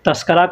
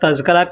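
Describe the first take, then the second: First: The middle cluster is a voiceless 'sk'. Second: The middle cluster is a voiced 'zk'. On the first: This is how people commonly say it. "लोग तस्करा कहते हैं" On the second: This is the form the word is read as. "या तज़किरा कहें"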